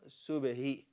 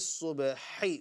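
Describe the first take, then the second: First: The middle consonant is a plain, light h. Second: The middle consonant comes from deep in the throat. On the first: The speaker calls it wrong. "It's not subahi" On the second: The speaker calls it right. "with the ha"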